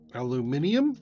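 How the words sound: The word is said in a European way.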